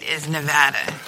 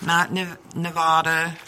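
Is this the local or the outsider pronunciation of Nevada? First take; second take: local; outsider. First: The name is said the way locals say it. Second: The name is said the way outsiders say it. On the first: The speaker calls it right. "Nevada, the state, is Nevada" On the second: The speaker calls it wrong.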